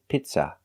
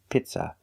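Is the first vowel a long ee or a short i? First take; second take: short i; short i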